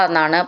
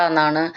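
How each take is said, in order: No difference in how they are said.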